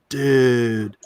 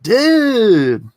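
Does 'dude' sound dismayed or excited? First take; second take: dismayed; excited. First: It sounds dismayed and disappointed. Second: It sounds excited and happy. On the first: Something bad just happened. "you could like lose a flat, the car, uh, lo- or get a flat tire, and you're like" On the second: Something great just happened. "hey, I just got engaged"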